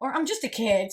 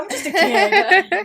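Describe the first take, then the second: First: Said in the usual way. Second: Put-on high, loud, slow childlike whine; drawn-out kid voice, rising at the end; playful little kid voice. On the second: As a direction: play the small kid asking for slack. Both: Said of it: "So now I'll go".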